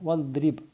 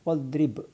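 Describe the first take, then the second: No difference in how they are said.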